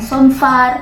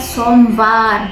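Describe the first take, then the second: First: The consonant after the m is an f. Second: The consonant after the m is a v. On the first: The speaker calls it wrong. "bukan Somvar" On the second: The speaker calls it right. "dia pakai V ya guys, bukan pakai F"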